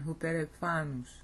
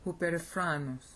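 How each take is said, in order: First: No R sound is inserted before the ending. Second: An R sound is inserted before the ending. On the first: The speaker calls it right. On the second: The speaker calls it wrong.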